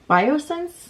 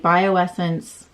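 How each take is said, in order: First: The name is said with three syllables. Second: The name is said with four syllables. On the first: The speaker calls it right. "How do you say that? Biosense?" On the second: The speaker calls it wrong. "I've always called it Bioessence, and that is that is obviously wrong"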